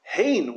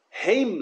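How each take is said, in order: First: Hein stressed, ending on N; final N sound. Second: Heim stressed, ending on M; final M sound. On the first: Teacher explaining the emphatic word, Hein stressed with final N. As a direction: lean on Hein and finish it with a nun. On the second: Teacher explaining the other word, heim stressed with final M. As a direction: lean on heim and close it with an M. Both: Shown as a demonstration. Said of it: "Hein with a nun".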